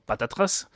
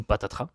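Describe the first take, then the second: First: "patatras" with a sounded s at the end; "patatras" rhyming with "trace"; final s pronounced. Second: "patatras" ending on an open "tra"; silent final s. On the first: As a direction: say "patatras" ending in an audible hiss of s. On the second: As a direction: drop the s at the end of "patatras". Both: Shown as a demonstration. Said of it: "je sais pas comment vous prononcez".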